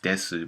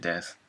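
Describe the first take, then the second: First: The final u vowel is clearly pronounced. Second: The final vowel is dropped, ending in s. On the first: "we are told it's desu" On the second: "most of the time we say death"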